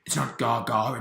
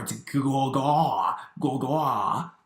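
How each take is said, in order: First: "Gaga" said the mum's mistaken way; mispronounced Gaga. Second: "Gaga" drawn out slowly with exaggerated rounded vowels; corrected Gaga. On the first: Retold or imitated. Boss Baby corrects mum's word, quoting her plain Gaga. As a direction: say Gaga plainly, both syllables alike. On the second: Boss Baby corrects mum, exaggerated slow Gaga. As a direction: stretch Gaga slowly into a throaty goo-gaw. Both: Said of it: "mispronounced it".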